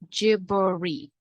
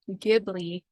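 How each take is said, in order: First: The name is said with Japanese sounds. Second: The name is said with American English sounds. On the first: "proper pronunciation" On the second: "is like the Americanized version"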